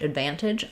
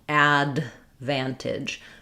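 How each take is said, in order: First: The D is held without being released. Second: The D is clearly released before the V. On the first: The speaker calls it right. "I'm not leaving that D out" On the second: The speaker calls it wrong. "I'm also not saying advantage. There's no release of that D"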